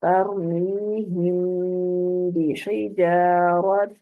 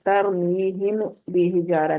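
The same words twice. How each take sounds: First: Slow chant, "तरमीहिम" ending in a long nasal hum; ghunna with hidden meem. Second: "तरमीहिम बिहिजारा" read straight through, meem unheld; no ghunna. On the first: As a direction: draw out "तरमीहिम" and hide its meem before "बिहिजारत". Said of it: "इसको नाक में आवाज को हमने छुपा के". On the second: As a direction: say "तरमीहिम बिहिजारा" with a short meem, no nasal hum. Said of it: "इसको हम तरमीहिम बिहिजारा नहीं पढ़ेंगे". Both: Shown as a demonstration.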